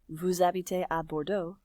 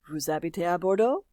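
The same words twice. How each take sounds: First: The voice falls at the end. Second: The voice rises at the end. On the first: It states a fact. "Here's a statement" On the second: It asks a question. "it goes up at the end"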